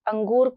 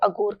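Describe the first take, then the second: First: The first vowel carries a nasal sound. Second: The first vowel has no nasal sound. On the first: The speaker calls it right. "नासिक ध्वनियों का लोप" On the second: The speaker calls it wrong. "अंगूर को अगूर कहना"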